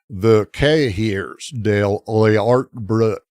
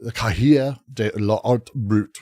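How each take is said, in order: First: It is said with a Southern accent. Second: It is said without a Southern accent. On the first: "I forgot my southern accent" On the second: "which I'm not pronounced"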